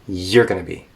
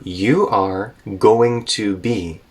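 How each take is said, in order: First: The words run together in a reduced form. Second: Each word is said separately and fully.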